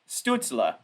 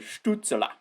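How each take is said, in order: First: It has a light, anglicized German sound. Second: It has a strong, exaggerated German sound.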